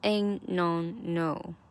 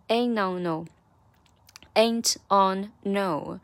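First: The words are linked, with the t swallowed. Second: The words are said separately without linking.

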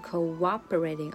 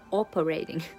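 First: A w glide links the first two syllables. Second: No w glide links the first two syllables. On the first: The speaker calls it right. "所以中间加了一个w 的音作为桥梁，所以就是cooperating" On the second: The speaker calls it wrong. "而不是cooperating"

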